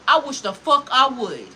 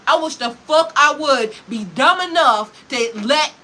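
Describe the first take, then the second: First: Said in the usual way. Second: Slower and louder, each word hammered; emphatic repeat. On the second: Real, not acted. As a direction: drive the repeat home with slow heavy force. Repeats the line with force.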